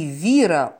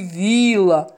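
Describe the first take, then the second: First: The middle consonant is an R sound. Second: The middle consonant is an L sound. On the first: The speaker calls it right. "Вместо" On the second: The speaker calls it wrong. "он кричал"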